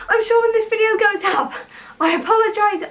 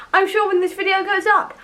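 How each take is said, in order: First: Breathless, panting between words; out of breath. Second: Said in the usual way. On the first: Real, not acted. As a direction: talk while still catching your breath. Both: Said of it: "I'm very out of breath already".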